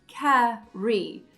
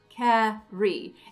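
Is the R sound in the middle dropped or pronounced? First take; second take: pronounced; pronounced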